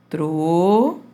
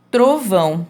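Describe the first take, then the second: First: TROVÃO split slowly as TRO, long pause, VÃO; syllable by syllable. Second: Said in the usual way. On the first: Shown as a demonstration. Teacher separating the syllables for pupils, word broken in two. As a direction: hold TRO in TROVÃO, stop, then VÃO. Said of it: "vou separar aqui a sílaba". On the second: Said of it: "Por exemplo".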